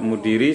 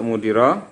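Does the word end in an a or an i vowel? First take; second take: i; a. First: The word ends in an i vowel. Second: The word ends in an a vowel. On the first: The word is a substitute for 'anyone'. "sebagai badal dari ahadin" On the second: The word is the excepted noun in the accusative.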